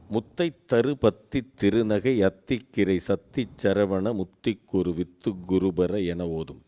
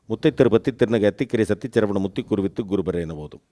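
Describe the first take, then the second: First: It is recited slowly. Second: It is recited fast.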